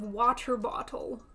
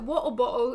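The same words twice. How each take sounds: First: The t sounds are pronounced. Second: The t sounds are dropped. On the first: The speaker calls it right. "the correct pronunciation of water bottle" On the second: The speaker calls it wrong. "you can't tell me that water bottle is the correct pronunciation"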